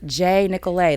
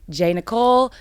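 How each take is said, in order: First: The name ends with an 'ay' vowel. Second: The name ends with an 'l' sound. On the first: The speaker calls it right. "It's just J Nicolay" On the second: The speaker calls it wrong. "Not J Nicole"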